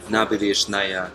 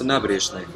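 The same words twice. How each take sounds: First: Every vowel is pronounced fully and clearly. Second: The unstressed vowels are reduced and shortened. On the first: The speaker calls it wrong. "вы не говорите" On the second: The speaker calls it right. "а просто"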